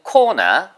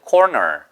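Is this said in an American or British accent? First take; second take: British; American. First: It is said in a British accent. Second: It is said in an American accent. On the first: "영국 사람들은 corner, corner 이렇게 발음을 할 거예요" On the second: "미국 사람들은 corner, corner 따라 하시면 돼요"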